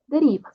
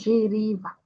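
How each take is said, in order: First: The word begins with a plain hard 'd' sound. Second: The word begins with a soft 'j'-like sound. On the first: The speaker calls it right. "só deriva" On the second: The speaker calls it wrong. "não giriva"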